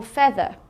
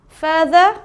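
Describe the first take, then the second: First: "feather" with the open vowel of head; short "e" vowel. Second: "further" with the long vowel of "her". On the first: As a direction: say "feather" to rhyme with "leather". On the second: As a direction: draw out the first vowel of "further" as "fur". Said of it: "you can have U R for further". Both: Shown as a demonstration.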